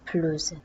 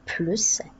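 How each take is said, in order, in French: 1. Le mot se termine par un son Z. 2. Le mot se termine par un son S.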